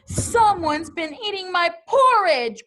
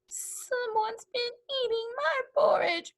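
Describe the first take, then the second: First: It is growled in Papa Bear's voice. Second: It is cried in Baby Bear's voice.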